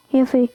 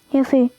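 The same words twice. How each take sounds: The two takes are said the same way.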